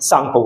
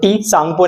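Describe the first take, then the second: First: The name starts with an s sound. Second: The name starts with a t sound. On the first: The speaker calls it right. "टी silent सांगपो बोलेंगे" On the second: The speaker calls it wrong. "टी सांगपो नहीं बोलेंगे हम इसको"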